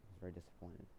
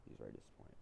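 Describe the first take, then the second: First: Said in the usual way. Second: He's very disappointed, repeated as a low, much softer whisper; mock mournful whisper. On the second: Shown as a demonstration. Storyteller repeating the friend's reaction as a mock-sad whisper.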